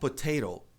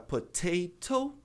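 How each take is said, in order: First: The second T is a quick flap. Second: The second T is a clear T. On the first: "Então a gente pode substituir o T pelo R" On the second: "No inglês britânico"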